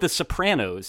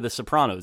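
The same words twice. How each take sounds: First: The vowel is said with a New Jersey accent. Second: The vowel is said with a standard accent.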